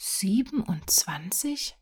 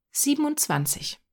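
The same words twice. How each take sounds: First: Slow, questioning wonder; astonished echo. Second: Confident answer. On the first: Boy hears how many rabbits there are, slowly astonished. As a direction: draw it out as an amazed question. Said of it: "Jürgen machte einen runden Mund". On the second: Boy answers the sum confidently. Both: A narrator's reading.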